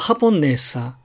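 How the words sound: The syllable ne is the lowest in the word. "アクセントのあるねが一番低くなってしまうんですね"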